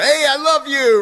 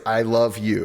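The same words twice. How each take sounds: First: High, loud, careless shout; mock holler. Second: Said in the usual way. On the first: Coach imitating someone who goes around blurting love to anyone, hollered high and loud. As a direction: belt it out like a caveman declaring love. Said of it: "scream it at the top of their lungs".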